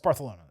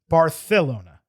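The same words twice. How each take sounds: First: The ending is run together and slurred. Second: Every syllable is pronounced with exaggerated care. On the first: This is how the name is normally said. The speaker calls it right. "is really what it's supposed to be" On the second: It copies a character from a film. The speaker calls it wrong. "over enunciated in the film"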